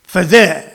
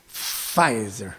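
First: Pfizer clipped as "fuh-zay", French ending. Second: Pfizer said softly as "fa-ee-zer", French-sounding, much lower; Frenchified Pfizer. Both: Shown as a demonstration. Showing viewers Pfizer sounds French, mock French. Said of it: "See, it sounds French".

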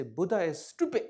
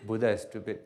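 First: A lightly voiced taunting critic; mock challenger. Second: Lower, calm, unbothered tone; calm agreement. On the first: A heckler telling the Rinpoche Buddha is stupid, light mocking voice. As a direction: toss out the insult like a provocateur. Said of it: "they say". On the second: Retold or imitated. Rinpoche calmly agreeing with his critic, low unbothered tone. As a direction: agree serenely without a trace of defensiveness. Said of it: "I say".

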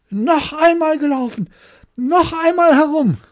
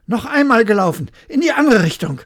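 First: Very high, very loud enraged yell; furious scream. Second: Loud, high call for a rematch; loud demand. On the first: Hare screaming at the hedgehog, beside himself with fury. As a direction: scream it, beside yourself with rage. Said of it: "außer sich vor Ärger und schrie". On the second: Hare demanding a rematch from the hedgehog, loud and high. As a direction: insist on running again. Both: Acted.

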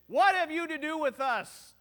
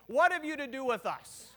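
First: Loud crazed outburst from the front row; demoniac screaming. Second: Louder, half-acted scream of the line; preacher showing how the man shouted; demo scream. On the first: Retold or imitated. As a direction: yell it like a man bursting into the service. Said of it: "and start screaming?". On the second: Shown as a demonstration. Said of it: "if I start screaming".

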